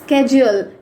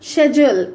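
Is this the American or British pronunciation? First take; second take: American; British. First: It is said in the American way. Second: It is said in the British way. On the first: "according to American English" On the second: "according to British English"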